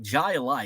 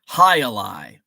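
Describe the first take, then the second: First: The name begins with a J sound. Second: The name begins with an H sound. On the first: The speaker calls it wrong. "I'm mispronouncing it" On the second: The speaker calls it right. "High Alai actually sounds even more fun"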